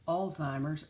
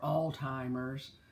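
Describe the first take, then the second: First: No t sound is said before the z. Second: A t sound is said before the z. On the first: The speaker calls it right. "it does not have a T. It is Alzheimer's" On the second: The speaker calls it wrong. "putting a T in that um, in that word"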